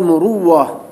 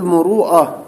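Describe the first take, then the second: First: A doubled w sound replaces the glottal stop. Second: A glottal stop is heard near the end. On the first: "وقد تقلب الهمزة واو وتدغم فيقال مروة" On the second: "تارة تقول مروءة"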